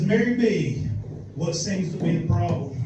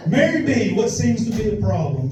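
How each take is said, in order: First: Said in the usual way. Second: Hammed-up Ron. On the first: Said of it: "first take". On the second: Shown as a demonstration. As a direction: play it up as a cheesy porn repairman. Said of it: "repeats the line, marked".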